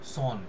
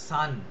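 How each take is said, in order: First: The vowel is a rounded 'o' sound. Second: The vowel is an open unrounded 'a' sound. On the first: The speaker calls it wrong. "সান কে আমরা বলি সন" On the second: The speaker calls it right. "ইংরাজিতে ওই অটাকেই আ বলা হয়"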